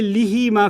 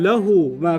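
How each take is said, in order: First: The first syllable has an 'i' vowel. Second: The first syllable has an 'a' vowel. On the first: The speaker calls it wrong. "You don't say" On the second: The speaker calls it right. "What do you say?"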